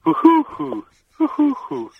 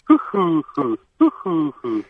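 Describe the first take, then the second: First: Very high, tight pigeon hoots; Hungarian pigeon coo. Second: Higher hooting coo, falling; a London pigeon cooing. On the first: Host asks for the Hungarian pigeon, caller hoots very high. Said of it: "Now the Hungarian one". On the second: Host demands the London pigeon coo, higher hoots. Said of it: "Do the London one again". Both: Shown as a demonstration.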